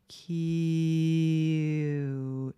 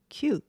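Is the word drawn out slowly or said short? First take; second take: drawn out; short. First: The word is drawn out slowly. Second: The word is said short and quick. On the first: "천천히 발음하면 옛날 카세트 테이프 이렇게 늘어지면 나는 소리" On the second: "점점 짧게 짧게 짧게 발음해 보시면"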